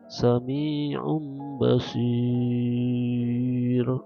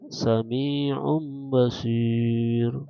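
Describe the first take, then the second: First: The last long vowel is held very long. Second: The last long vowel is held moderately long. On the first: "itu panjang" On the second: "Atau sedang"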